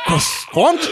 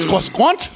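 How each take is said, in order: First: Croissant said high as kiss-kwahnt; mock French croissant. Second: Croissant said higher as kwah-skwahnt; mock French retry. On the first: Host mocking the announcer stumbling on a French word, high questioning. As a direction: fumble Croissant with a fake French twist. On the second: Host mocking the announcer retrying the French word, higher rising. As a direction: try Croissant again more French, rising. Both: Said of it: "how do you say that?".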